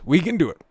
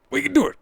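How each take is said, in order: First: Rising cheerleader push, higher; mock pep talk. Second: Way higher, cartoonish rallying cry; squeaky mock cheer. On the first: Host rallying his viewers through the clip, mock encouraging. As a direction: hype the viewers up. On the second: Host cheering viewers on, squeaky mock cheer. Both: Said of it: "Come on".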